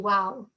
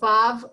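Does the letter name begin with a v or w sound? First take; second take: w; v. First: The name begins and ends with a w sound. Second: The name begins and ends with a v sound. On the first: This is how the tradition said it. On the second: This is not how the tradition said it.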